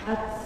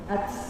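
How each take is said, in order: First: The t is released with a heavy rush of breath. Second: The same.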